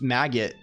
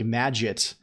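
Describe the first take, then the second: First: The second syllable is a clear 'git'. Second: The second syllable is not a clear 'git'. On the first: "the git part is pronounced properly and it sounds like maggot" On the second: "the git part, which is the crucial part, is not even not even said properly"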